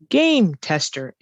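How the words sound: The stress is on the first word. The speaker calls it right. "the stress is always on the first word in a compound word. Our voice goes up"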